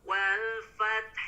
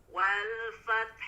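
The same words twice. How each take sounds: Both takes have the same delivery.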